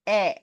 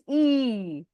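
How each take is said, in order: First: A short 'eh' vowel, as in elephant. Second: A long 'ee' vowel, as in eagle. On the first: "When we say elephant, it becomes E" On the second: "When you say eagle, it becomes E"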